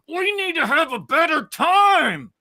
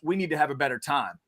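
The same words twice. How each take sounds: First: It is said in a frantic, agitated shout. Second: It is said in a calm, even tone.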